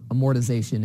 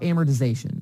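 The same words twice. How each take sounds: First: It is said with a British pronunciation. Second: It is said with an American pronunciation.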